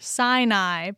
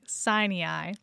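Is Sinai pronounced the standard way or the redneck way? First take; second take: standard; redneck. First: Sinai is pronounced the standard way. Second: Sinai is pronounced the redneck way. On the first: "The S stands for Sinai" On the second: "you were saying Sinai"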